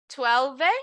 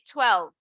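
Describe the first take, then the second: First: An extra vowel is sounded after the final v. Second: The word ends on the v with no vowel. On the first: The speaker calls it wrong. "you don't have to pronounce that last E" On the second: The speaker calls it right. "You can just say twelve"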